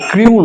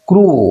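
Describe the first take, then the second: First: The vowel has a y glide, like yoo. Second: The vowel is a plain long oo. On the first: The speaker calls it wrong. "এটা ক্রিউ নয়" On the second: The speaker calls it right.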